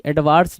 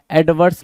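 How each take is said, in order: First: Ad-VAARS; long open "vaars" in एडवांस; wrong adverse. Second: Ad-VURS; short neutral vowel in एडवर्स; correct adverse. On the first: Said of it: "एडवांस नहीं". (एडवांस में लंबा "वार्स" बोलें) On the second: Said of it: "एडवर्स mark करोगे". (एडवर्स को "एड-वर्स" बोलें) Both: Shown as a demonstration.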